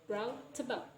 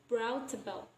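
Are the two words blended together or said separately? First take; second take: blended; blended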